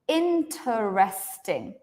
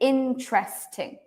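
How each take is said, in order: First: It is said with four syllables. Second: It is said with three syllables. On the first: "some people will say interesting" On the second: "But most people will say interesting. Three"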